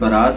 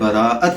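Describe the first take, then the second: First: The middle has one long a-vowel. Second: The middle has two separate a-vowels. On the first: The speaker calls it wrong. "ये लफ्ज़ बरात नहीं है" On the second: The speaker calls it right. "बल्कि ये लफ्ज़ बराअत है"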